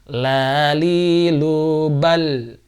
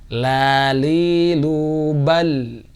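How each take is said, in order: No difference in how they are said.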